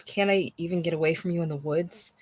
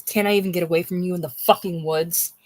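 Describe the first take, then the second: First: Said in the usual way. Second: Breathless whisper on "fucking woods"; whispered film quote. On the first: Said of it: "she says". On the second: Retold or imitated. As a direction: hiss the film line with "fucking" leaned on. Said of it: "Kate says".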